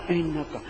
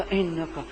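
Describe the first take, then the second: No difference in how they are said.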